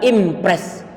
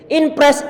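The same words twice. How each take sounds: First: The n turns into an m before the p. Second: The n sound is kept before the p. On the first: "di saat ngomong orang kampung misalnya, mereka bilang" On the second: "I N P R E S"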